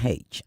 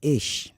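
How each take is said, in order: First: The letter is said with an English pronunciation. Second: The letter is said with a Yoruba pronunciation. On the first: The speaker grew up in England. "I'm saying H because I grew up in England" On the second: A typical Yoruba speaker says it this way. "The average Yoruba will say ish"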